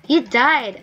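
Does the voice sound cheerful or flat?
cheerful. It is said in a cheerful, excited way. Dying is something to celebrate. "But, you died! Hooray! That would be way better"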